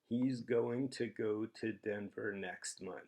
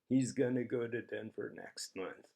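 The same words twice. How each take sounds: First: 'Going to' is said in full. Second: 'Going to' is reduced to 'gonna'. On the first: "Consider the first sentence written as" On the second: "Really common way to pronounce that would be"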